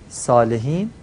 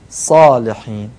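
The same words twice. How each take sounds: First: The first consonant is light and thin. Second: The first consonant is heavy and full. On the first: The speaker calls it wrong. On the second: The speaker calls it right.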